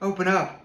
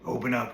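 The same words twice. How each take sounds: First: The wolf speaks in a soft voice. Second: The wolf speaks in a gruff voice.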